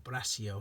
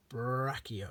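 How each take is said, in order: First: Braccio with a soft middle, "brass-ee-o"; alternative name pronunciation. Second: Brachio with a hard K, "brack-ee-o"; alternative name pronunciation. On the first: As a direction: soften the middle of Braccio to a hiss-like S. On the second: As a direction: say Brachio with a K sound in the middle. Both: Shown as a demonstration. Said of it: "however you want to pronounce that".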